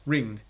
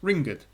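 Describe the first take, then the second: First: The word is said as one syllable. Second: The word is said as two syllables. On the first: "as it's written on the screen before you, it's pronounced ringed" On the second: "If it was written E D, it'll be pronounced ringed"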